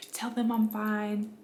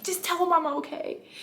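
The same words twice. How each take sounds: First: Said in the usual way. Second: High, strained plea through pain; strained in labor. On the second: Retold or imitated. Telling her husband while in labor, a high strained plea. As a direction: squeeze the words out mid-contraction. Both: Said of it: "I didn't say it like that".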